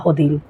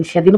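First: হদিন opening on h, "hodin"; Sylheti pronunciation. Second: Said in the usual way. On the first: Shown as a demonstration. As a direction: say হদিন with h in place of sh. (হদিন Sylheti উচ্চারণে, শ-এর জায়গায় হ) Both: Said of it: "সেদিন কই না".

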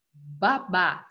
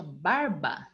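First: Said in the usual way. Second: "barba" said slowly with the R in the middle. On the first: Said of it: "Se eu colocar um R no meio". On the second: Shown as a demonstration. Teacher shows pupils the changed word, "barba" slow with R. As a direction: draw out "barba" so the inserted R is heard. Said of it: "colocar um R no meio".

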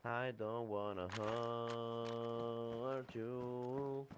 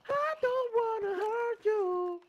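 First: Very slow, low mock menace; slow deep drawl. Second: Slow, very high mock squeal; high squeaky voice. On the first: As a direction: stretch every word out low. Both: Mocking teammate's line.

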